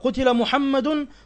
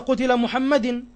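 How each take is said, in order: First: The name ends with a 'u' vowel. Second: The name ends without a 'u' vowel. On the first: The speaker calls it right. "مرفوع بالضمة" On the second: The speaker calls it wrong. "وليس"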